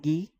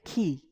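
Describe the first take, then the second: First: It begins with a hard g sound. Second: It begins with a harsh throaty sound. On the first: The speaker calls it wrong. "It is not gi" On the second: The speaker calls it right. "it is ki"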